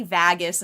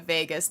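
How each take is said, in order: First: VAGUS said as VAG-us, short A; short-A version of VAGUS; imitated odd Vegas. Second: Said in the usual way. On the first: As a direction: rhyme the start of VAGUS with bag. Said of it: "people say Vagus instead of Vegas". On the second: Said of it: "instead of Vegas".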